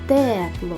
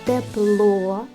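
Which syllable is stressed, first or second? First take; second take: first; second. First: The stress is on the first syllable. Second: The stress is on the second syllable. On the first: "Перший" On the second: "Другий"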